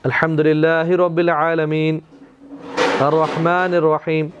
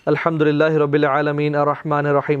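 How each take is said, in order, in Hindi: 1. दोनों आयतों के बीच रुका जाता है। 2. दोनों आयतें बिना रुके एक साथ पढ़ी जाती हैं। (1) "तो वक्फा कर देते, पॉज करते" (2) "ऐसे नहीं पढ़ते"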